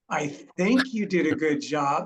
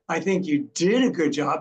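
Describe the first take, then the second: First: The word 'think' carries the main stress. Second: The word 'did' carries the main stress. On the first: The speaker is not really sure. "I'm not really sure" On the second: The past was good, but the future is uncertain. "but what are we doing going forward?"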